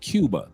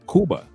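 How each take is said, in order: First: It is said with an American English pronunciation. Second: It is said with a non-American pronunciation.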